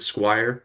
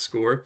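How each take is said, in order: First: The word is said to rhyme with 'fire'. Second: The word is said to rhyme with 'more'. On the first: The speaker calls it wrong. "They might pronounce it Squire" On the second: The speaker calls it right. "it definitely is pronounced SCORE"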